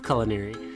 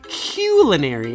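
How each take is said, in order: First: The word gets a plain, everyday pronunciation. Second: The word gets a fancy, elevated pronunciation. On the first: The speaker is being ordinary. "instead of culinary" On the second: The speaker is being sophisticated. "it's so elevated that you say culinary"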